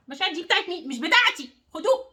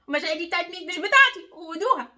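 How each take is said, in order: First: Demo of handing back. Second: Higher and louder, pushing the feelings back; forceful handing back. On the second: Coach showing viewer how to refuse guilt, loud and firm. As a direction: say it like you mean it, throwing them back. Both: Shown as a demonstration. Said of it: "عايزاكي ترجعي لكل واحد مشاعره".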